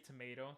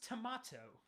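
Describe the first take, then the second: First: Tomato is said in an American accent. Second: Tomato is said in an Australian accent.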